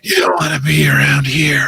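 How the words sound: It is said in a put-on creature voice.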